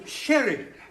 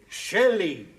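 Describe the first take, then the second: First: The middle consonant is a clear R sound. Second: The middle consonant is an L sound. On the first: The speaker calls it right. "No, sherry" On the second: The speaker calls it wrong. "You're saying Shelley"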